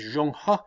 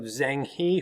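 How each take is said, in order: First: The name is said with Mandarin sounds. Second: The name is said with English sounds. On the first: The speaker calls it right. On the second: The speaker calls it wrong.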